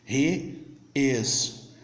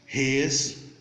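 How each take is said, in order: First: Two separate words, with the vowel of is. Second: One joined word, without the vowel of is. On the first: "Você vai falar os dois" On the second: "Já na forma contraída, ... Você vai ter os dois juntos"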